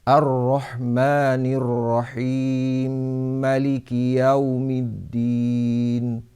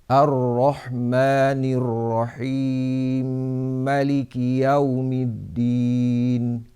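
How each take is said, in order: Both takes have the same delivery.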